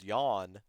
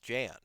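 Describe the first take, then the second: First: The name begins with a Y sound. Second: The name begins with a J sound. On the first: The speaker calls it right. "the phonetical pronunciation? And I just realized it was yawn" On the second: The speaker calls it wrong. "they were pronouncing it as um"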